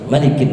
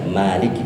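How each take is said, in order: First: The first vowel is kept short. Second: The first vowel is drawn out long. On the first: The speaker calls it right. "Harus malikin nas" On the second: The speaker calls it wrong. "nggak boleh dibaca maliki, nggak boleh ... jangan dibaca panjang itu"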